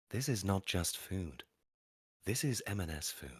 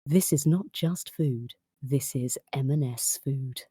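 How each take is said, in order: First: Soft, hushed sexy food-advert voice. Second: Slow, drawn-out sexy food-advert read. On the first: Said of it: "You do the voice and I'll try". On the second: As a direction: stretch it out like a seductive ad. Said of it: "You do the voice". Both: Shown as a demonstration.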